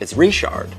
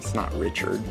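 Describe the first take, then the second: First: The name is said the Louisiana French way. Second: The name is said the usual English way.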